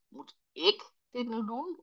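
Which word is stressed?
ik. The stress is on "ik".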